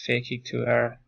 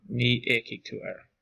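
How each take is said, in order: First: Said in the usual way. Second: Ní éachaigh with no F sound; F lenited away after ní; silent F after ní. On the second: Shown as a demonstration. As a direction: drop the F: ní éachaigh, starting on the vowel. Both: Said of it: "You can't really hear the F".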